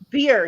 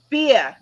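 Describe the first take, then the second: First: It is said in her own plain accent. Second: It is said in a Boston accent.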